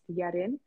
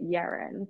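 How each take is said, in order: First: The name is said with a Korean pronunciation. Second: The name is said with an English pronunciation. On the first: "in Korean it's pronounced Yerin" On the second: "in, I guess, the English language ... people would pronounce it Yeren"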